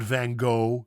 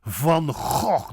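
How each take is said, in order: First: Van Gogh as "van go"; flat a in Van, silent ending in Gogh; Americanized Van Gogh; wrong English pronunciation. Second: Van Gogh as "fun khokh"; slow, rasped g's in Gogh; throaty Dutch Van Gogh; correct Dutch pronunciation. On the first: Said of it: "It's not". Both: Shown as a demonstration.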